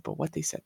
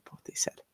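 First: Dropping much softer; repeated line falling to near silence; fading softer. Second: Whispered, fading out; last repeat sinks into a whisper. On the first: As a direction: let it fade away. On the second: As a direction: breathe it out as a whisper. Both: Real, not acted. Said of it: "repeats fading out".

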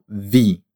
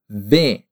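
First: "vi" said with an ee vowel; wrong VI. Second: "V" said as "veh", with an E; correct VE. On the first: Teacher shows what not to say, ee ending. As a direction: show the mistaken "vi", ending in ee. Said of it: "e não vi". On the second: Teacher shows the ending of chiave, clear E. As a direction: say "V" as an open Italian "ve". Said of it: "se pronuncia mesmo V". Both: Shown as a demonstration.

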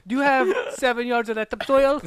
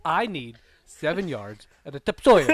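First: High, loud query with "topsoil" said as tup-SOIL; misplaced stress. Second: Deliberate, spaced words ending on tup-SOIL for "topsoil"; slowed-down repeat. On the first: Customer asks the supplier for soil, "topsoil" stressed on SOIL. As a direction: ask briskly, punching the second syllable of "topsoil". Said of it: "I put the wrong emphasis". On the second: Customer repeats for a baffled supplier, slow and deliberate, "topsoil" as tup-SOIL. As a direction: spell it out word by word, still stressing the end of "topsoil". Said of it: "can you slow down". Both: Acted.

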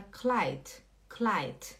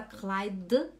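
First: Kleid ending in a crisp t; careful German Kleid with voiceless t at the end; final T. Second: Kleid ending in a voiced d with a little release; mispronounced Kleid, voiced final d; wrong final D. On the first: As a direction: say "Kleid" as if spelled klait. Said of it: "a gente fala com T". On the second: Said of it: "Você não fala Kleid". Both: Shown as a demonstration.

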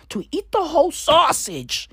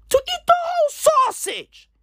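First: Said in the usual way. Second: Squeaky voice pitched much higher; hammed-up falsetto repeat of the joke; mock squeaky voice. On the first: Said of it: "repeats it in put-on voice". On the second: Comic repeating his crude joke in a squeaky falsetto. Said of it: "repeated in a put-on voice".

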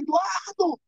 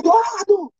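First: High-pitched, urgent name call; retold cry for attention; calling the boss. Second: Very high, forceful name call; retold frantic holler; insistent second call. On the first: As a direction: act out calling him, voice way up high. Calls out to boss with news. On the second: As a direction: act out calling harder, pitch shooting up. Calls boss again, more forcefully.

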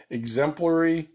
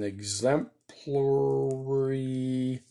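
First: Said in the usual way. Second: EXEMPLARY stretched out very slowly; EXEMPLARY with long, held syllables; drawn out. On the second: Real, not acted. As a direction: drag out EXEMPLARY while writing it down. Drawing out the word while writing it.

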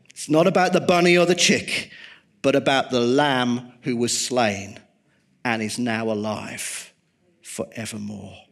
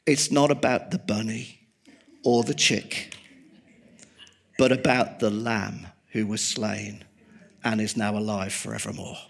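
First: Emphatic repeat. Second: Said in the usual way. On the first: Shown as a demonstration. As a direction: say it again so it sticks, punching it out. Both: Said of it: "Let me just say this".

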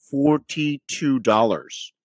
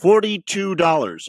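First: "forty-two dollars" said slowly, each word weighted; slow emphatic repeat. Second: Said in the usual way. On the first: Shown as a demonstration. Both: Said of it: "I repeat one more time".

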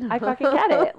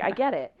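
First: "I fucking get it" pushed higher, with force; emphatic realization. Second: Said in the usual way. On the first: Retold or imitated. Retold realization, repeated emphatically.

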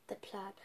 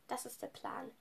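First: Soft breathy whisper. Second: Said in the usual way. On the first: Real, not acted. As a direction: whisper it to yourself. Repeats phrase in a whisper.

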